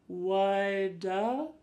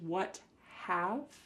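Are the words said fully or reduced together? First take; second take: reduced; fully. First: The words blend into one short reduced word. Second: Both words are said fully and separately. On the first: "it sounds like woulda" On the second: "This is what have"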